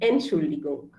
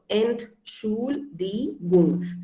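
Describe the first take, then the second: First: It is said quickly as one smooth word. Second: It is said slowly with pauses between syllables. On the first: "when you go fast" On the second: "I'm just breaking it down for you"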